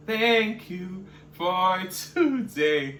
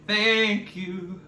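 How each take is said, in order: First: Slow drawn-out thanks. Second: Said in the usual way. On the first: Real, not acted. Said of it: "drawn-out sign-off thanks". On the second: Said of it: "sign-off thanks".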